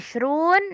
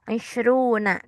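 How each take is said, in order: First: The word ends on the consonant n. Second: The word ends on an added a vowel. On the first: "boleh dibaca Ishrun, disukunkan" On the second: "boleh baca Ishruna"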